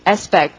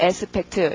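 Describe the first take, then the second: First: It is said English-style, with an almost silent t. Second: It is said Korean-style, with a clear final t. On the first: The speaker calls it right. "영어로 어떻게 해요? ... 트 소리 거의 안 나고" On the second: The speaker calls it wrong. "한국말처럼 aspect 이러지 마시고"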